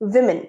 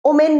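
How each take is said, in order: First: It is said like 'wi-min'. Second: It is said like 'oh-men'. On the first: The speaker calls it right. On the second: The speaker calls it wrong.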